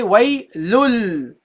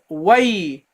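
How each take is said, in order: First: "waylul" slowly, final l held long; lam replacing noon. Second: "waylun" closing on a clear n; replaced noon ending. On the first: Teacher shows what you say instead, lam ending. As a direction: draw out the closing l of "waylul". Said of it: "you say waylul". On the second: Teacher shows the form to replace, noon ending. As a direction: sound an n at the end of "waylun". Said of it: "So instead of waylun". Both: Shown as a demonstration.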